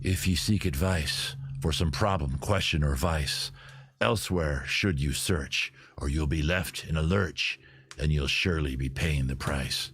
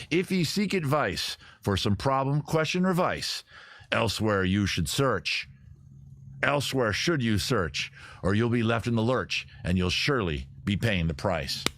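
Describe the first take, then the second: First: Lower, slow, gravelly pirate purr; gravelly sexy voice. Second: Half-hearted sea-dog recital; pirate voice. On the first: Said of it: "Sort of the gravelly, sexy voice". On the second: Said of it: "Let me read that again". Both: Acted.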